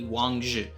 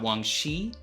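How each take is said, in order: First: The second word starts with a 'j' sound. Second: The second word starts without a 'j' sound. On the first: The speaker calls it right. "so it sounds like the end of the word judge" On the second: The speaker calls it wrong. "it is not Wang Shi or anything else"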